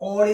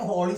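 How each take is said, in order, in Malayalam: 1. ഈ വാക്ക് സ്വരാക്ഷരത്തിലാണ് തുടങ്ങുന്നത്, h ഇല്ല. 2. ഈ വാക്ക് കേൾക്കാവുന്ന h ശബ്ദത്തിലാണ് തുടങ്ങുന്നത്. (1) "ഓളി എന്നല്ല പറയുന്നത്" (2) "എച്ച് ആണ് ഉച്ചരിക്കുന്നത്"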